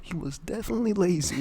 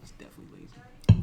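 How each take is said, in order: First: Higher-pitched, amused exclamation; raised-voice jibe. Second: Voiceless, under-the-breath remark; whispered jibe. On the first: Podcaster landing the jibe on co-host, higher, exclaimed. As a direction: pitch it up for the punchline. Repeats the joke out loud. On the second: Podcaster repeating a jibe to co-host, whispered. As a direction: whisper it as a sly aside. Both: Pretend.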